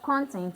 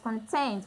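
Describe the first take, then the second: First: The stress is on the first syllable. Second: The stress is on the second syllable. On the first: It names what something contains. "So the stress is on the first syllable to show that it's a noun" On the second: It means being satisfied. "The stress is on the second syllable to show that it's a satisfaction"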